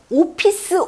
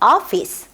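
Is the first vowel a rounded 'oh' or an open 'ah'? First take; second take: rounded oh; open ah. First: The first vowel is a rounded 'oh' sound. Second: The first vowel is an open 'ah' sound. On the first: The speaker calls it wrong. "오피스 only 아니고" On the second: The speaker calls it right. "어 또는 약간 아 정도 발음이요"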